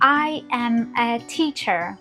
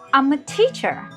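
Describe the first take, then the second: First: I am is said as two separate words. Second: I am is joined into one contracted word. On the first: The speaker calls it wrong. "we don't say, ... We don't say word by word" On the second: The speaker calls it right. "I am becomes I'm"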